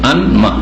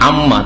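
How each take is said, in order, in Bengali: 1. m-এর আগে একটি n ধ্বনি শোনা যায়। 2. n ধ্বনি মিশে গিয়ে একটি দ্বিত্ব m ধ্বনি হয়। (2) "ডবল মিম হয়ে গেল আম্মা"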